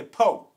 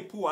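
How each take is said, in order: First: Po, drop the r the way Arkansas folks do. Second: Said in the usual way. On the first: Shown as a demonstration. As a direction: say po with no r at the end. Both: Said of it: "I don't say poor, I say po".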